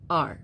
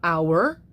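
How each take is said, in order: First: The word is said as one syllable. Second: The word is said as two syllables. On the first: "you reduce it and say R" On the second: "make it into two syllables"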